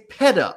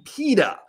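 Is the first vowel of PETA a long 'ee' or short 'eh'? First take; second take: short eh; long ee. First: The first vowel is a short 'eh' sound. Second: The first vowel is a long 'ee' sound. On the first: "So I say PETA, ... That's my preferred pronunciation" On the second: "Then it would be PETA"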